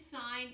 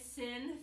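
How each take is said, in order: First: The vowel is long, like in 'sign'. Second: The vowel is short, like in 'sin'. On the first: The speaker calls it right. "it is sine" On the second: The speaker calls it wrong. "please don't ever call sine sin theta"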